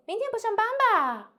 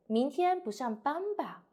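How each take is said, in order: First: Much higher, flat and straight; the wrong way, pitched way up; wrong high take. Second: 明天 up, 吧 down; falling confirmation. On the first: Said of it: "We cannot say". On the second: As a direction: say it like a near-certain guess. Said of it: "Go down, go down". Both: Shown as a demonstration.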